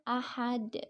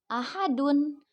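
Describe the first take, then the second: First: The word ends abruptly on a final d. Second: The word ends with a full -un ending. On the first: The reader stops at the end of the verse. "Karena diwakafkan, jadi dibacanya ahad" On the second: This is the original form without a stop. "asalnya itu dibacanya ahadun"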